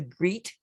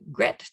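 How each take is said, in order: First: The vowel is a long ee sound. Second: The vowel is a short e sound. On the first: "the E A pronunciation as in beat" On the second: "as it's pronounced in the word head"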